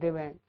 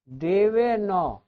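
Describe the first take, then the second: First: The word ends clipped on a bare 'n'. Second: The word ends with a full 'na' syllable. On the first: The speaker calls it wrong. "बहुत लोग इसको देवैन पढ़ते हैं" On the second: The speaker calls it right. "अ है इसमें"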